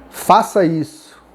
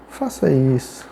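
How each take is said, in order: First: Slow, firm order; firm command. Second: Quiet, gentle ask; soft request. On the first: Teacher showing intonation, "Faça isso" as a firm order. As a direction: command it with weight on every word. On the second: Teacher contrasting intonation, "Faça isso" as a soft request. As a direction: lower the volume and ask mildly. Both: Shown as a demonstration. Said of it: "Então, a entonação".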